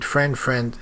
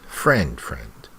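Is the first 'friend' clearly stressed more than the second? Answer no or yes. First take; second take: no; yes. First: Both words get about equal stress. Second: The first word gets strong stress. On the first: "it's not wrong" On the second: "you need to really stress the first friend"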